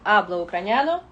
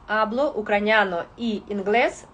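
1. Сполучник вимовляється як 'e'. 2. Сполучник вимовляється як 'i'. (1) "«І» перетворюється на «е»" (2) "так не буде функціонувати в іспанській мові"

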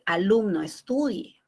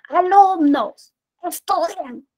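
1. Se dice suavemente, con una voz baja y tranquila. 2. Se dice en voz alta, elevada, como gritando. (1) "con este tono de voz, ¿no? Armonioso, un tono bajo" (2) "la misma frase, pero yo le subo el tono de voz"

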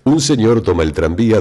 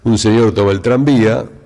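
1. El acento de la frase se adelanta hacia el principio. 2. La entonación baja al final de la frase. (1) "Y el neutro es, les diría, casi esdrujulizar la frase" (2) "la cadencia del napolitano, del porteño, es caerse en el final prácticamente"

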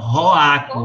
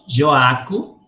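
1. O nome começa com um som parecido com R. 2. O nome começa com um som de J suave. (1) "o J tem som de R" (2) "Joaco não"

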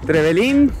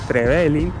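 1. El acento no está en una sílaba con e. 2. El acento está en una sílaba con e.

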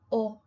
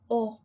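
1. La vocal es cerrada y grave. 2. La vocal es cerrada y grave.

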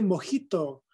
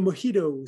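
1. Se pronuncia a la manera española. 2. Se pronuncia a la manera inglesa. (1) "Se dice"

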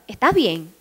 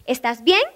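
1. El tono baja al final de la pregunta. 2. El tono sube al final de la pregunta. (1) "Es para abajo" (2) "Esto es para arriba"

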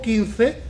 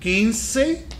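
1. Se dice con pronunciación española. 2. Se dice con pronunciación latinoamericana. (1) "en España" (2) "pronuncia en América"

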